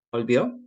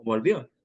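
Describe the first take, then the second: First: "volvió" with its opening consonant weakened; changed first sound. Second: Said in the usual way. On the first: Shown as a demonstration. Giving an example of sound change, "volvió" with a blurred first consonant. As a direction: let the "v" of "volvió" slip away. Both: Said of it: "el cambio de sonido".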